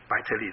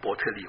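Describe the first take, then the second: First: The first syllable sounds like 'bai'. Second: The first syllable sounds like 'bo'. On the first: The speaker calls it wrong. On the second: The speaker calls it right.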